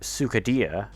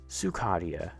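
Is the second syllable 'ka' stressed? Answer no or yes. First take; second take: no; yes. First: The stress is not on the second syllable. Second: The stress is on the second syllable, ka. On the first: The speaker calls it wrong. "It's not" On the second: The speaker calls it right. "emphasis on Ka"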